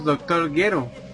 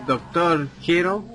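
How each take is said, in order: First: The name starts with a hard G sound. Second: The name starts with a breathy H-like sound. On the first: The speaker calls it right. "G de gato U E R O" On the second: The speaker calls it wrong. "Yo también lo dije mal"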